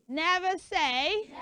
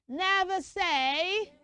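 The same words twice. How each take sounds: No difference in how they are said.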